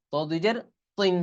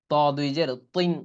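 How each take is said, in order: First: তিন said with a thick emphatic t, pitched higher; heavy emphatic t. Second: Said in the usual way. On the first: Shown as a demonstration. Teacher corrects the light তিন to a heavy emphatic one. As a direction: press the t in তিন hard and heavy. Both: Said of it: "ত দুই জের কিন্তু তিন না".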